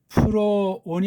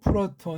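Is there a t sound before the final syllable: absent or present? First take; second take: absent; present. First: It is said with no t sound before 'on'. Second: It is said with a t sound before 'on'. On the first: The speaker calls it wrong. "아니고" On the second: The speaker calls it right.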